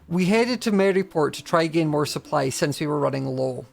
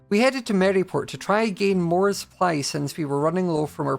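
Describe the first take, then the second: First: It has a pause after running low. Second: It runs on without a pause after low.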